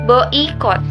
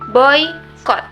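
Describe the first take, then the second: First: The first vowels are said as separate sounds. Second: The first vowels glide together without a break. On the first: The speaker calls it wrong. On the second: The speaker calls it right. "pembacaannya seolah memakai huruf Y"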